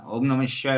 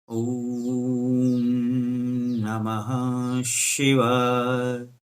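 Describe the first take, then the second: First: It is said fast and hurried. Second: It is said slowly and calmly.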